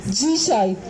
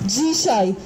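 Both takes have the same delivery.

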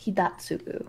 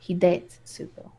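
First: "Hidatsugu" with a short flat A in the middle; mispronounced name. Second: "Hidetsugu" with "day" as the middle syllable; hard A. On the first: Trying the ogre shaman's name and getting it wrong, mispronounced. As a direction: say "Hidatsugu" with "dat" as the middle syllable. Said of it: "No, no, hard A". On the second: Repeating the corrected name back to a friend, hard A. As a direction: say "Hidetsugu" carefully as "hee-day-tsu-gu". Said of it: "no, hard A". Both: Real, not acted.

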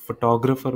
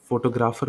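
First: photographer corrected to fo-TAW-gruh-fer; stress on second syllable. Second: photographer with a full "graa", FO-to-GRAA-fer; mispronounced. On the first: Teacher correcting a slip for learners, stress on TAW. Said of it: "इस syllable पे ज़्यादा stress दिया". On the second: Teacher slipping before correcting the example, mispronounced. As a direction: give photographer an unreduced third syllable. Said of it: "sorry". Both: Shown as a demonstration.

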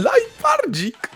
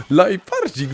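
First: Squeaky drawn-out endearment; adoring squeal. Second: Fond cooing. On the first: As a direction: stretch the pet name in delight. Cooing creature's name, first take. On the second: Settling down, second take. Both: Real, not acted.

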